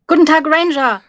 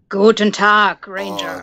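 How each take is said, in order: First: It is said in a bright, cheerful voice. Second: It is said in a low, evil voice.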